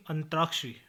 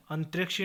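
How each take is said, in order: First: Said in the usual way. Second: अंतरिक्षी without the long raa; mispronunciation. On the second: Shown as a demonstration. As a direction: say antrek-shi for अंतरिक्षी. (अंतरिक्षी, लंबे रा के बिना) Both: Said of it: "नहीं".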